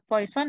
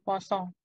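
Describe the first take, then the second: First: It sounds like the English word poison. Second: It has a French-like nasal ending, posong. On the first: It sounds like the English word for a toxic substance. The speaker calls it wrong. "Kalau disebut poison nanti artinya beda ya" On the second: It names the French person who defined the distribution. The speaker calls it right. "Ya udah sebaran posong"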